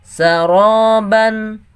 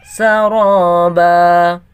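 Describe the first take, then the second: First: The word ends with a nasal 'an' sound. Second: The word ends with a long 'a' vowel.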